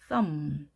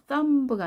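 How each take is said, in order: First: The word ends on the closed m sound. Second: A b sound is released after the m. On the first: The speaker calls it right. "썸브가 아니라 썸" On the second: The speaker calls it wrong. "썸브가 아니라"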